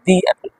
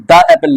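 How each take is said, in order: First: "the" said as "dee" before apple; correct "the". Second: "the" said as "duh" before apple; wrong "the". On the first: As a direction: say "the apple" with a long ee in the. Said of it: "इसको पढ़ेंगे". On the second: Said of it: "इसको the apple नहीं पढ़ेंगे". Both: Shown as a demonstration.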